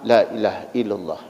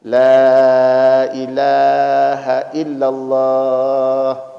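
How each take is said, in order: First: It is said quickly in rapid repetition. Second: It is said slowly and gently. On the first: The dying person is rushed and made to suffer. The speaker calls it wrong. "jangan kayak bapak zikir sholat" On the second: The dying person is given time to follow along. The speaker calls it right. "jadi kata Nabi pelan-pelan"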